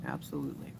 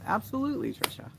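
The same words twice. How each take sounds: First: "Absolutely" dropped deep and soft; low-pitched agreement. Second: "Absolutely" in a high, lilting voice; high-pitched agreement. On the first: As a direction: repeat "Absolutely" low and quieter. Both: Real, not acted. Repeats agreement, high then low.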